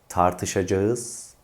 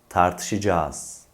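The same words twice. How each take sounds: First: The word is pronounced fully, as spelled. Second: The word is pronounced in reduced colloquial form. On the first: The speaker calls it wrong. "Yanlış telaffuz" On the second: The speaker calls it right. "Doğru telaffuz"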